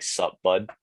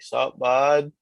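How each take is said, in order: First: Said in the usual way. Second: Louder, higher Canadian-accented greeting. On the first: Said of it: "whenever someone says". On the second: Shown as a demonstration. Canadian showing how to greet someone, playful Canadian accent. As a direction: greet a pal in broad Canadian. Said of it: "I can hear your Canadian accent".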